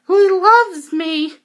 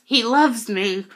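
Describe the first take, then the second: First: Much higher, louder, slow lovestruck squeal; giddy squeal. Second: Said in the usual way. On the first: Retold or imitated. Fan swooning after her idol's hug, giddy squeal. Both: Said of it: "And I was like".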